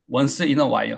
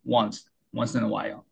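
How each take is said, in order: First: "once in a while" as won-seu in eo wa-il; "once in a while" in separate Korean syllables; Korean-style pronunciation. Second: "once in a while" linked as wahn-sin-a-while; slow "once in a while", no added vowel after once; English pronunciation. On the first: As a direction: say "once in a while" word by word, adding eu to once. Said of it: "하고 조금 다르죠". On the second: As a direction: say "once" as one slow syllable, then link it into "in a while". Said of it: "조금 다르죠". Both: Shown as a demonstration.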